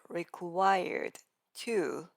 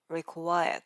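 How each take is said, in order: First: The word 'to' is pronounced fully. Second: The word 'to' shrinks to a short t. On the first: "instead of required to" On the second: "it becomes required"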